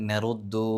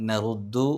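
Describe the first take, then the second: The two takes are said the same way.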